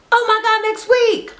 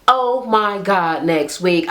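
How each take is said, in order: First: High, bright repeat of "Oh my God, next week"; excited squeal. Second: Slow, deliberate. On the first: Vlogger hyping next week's episode to viewers, high and squealing. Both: Real, not acted. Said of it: "I cannot wait".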